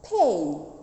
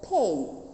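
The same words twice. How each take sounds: First: The vowel is said long. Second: The vowel is said long.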